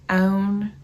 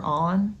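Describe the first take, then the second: First: "own" in a loud Southern drawl for "on"; grandma's Southern accent. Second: Said in the usual way. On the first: Retold or imitated. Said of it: "whipping out my grandma's accent". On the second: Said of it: "for on".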